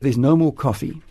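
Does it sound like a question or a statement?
statement. It is said as a flat statement.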